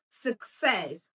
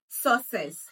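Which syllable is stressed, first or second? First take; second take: second; first. First: The stress is on the second syllable. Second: The stress is on the first syllable. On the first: The speaker calls it right. "It's success" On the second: The speaker calls it wrong. "Not success"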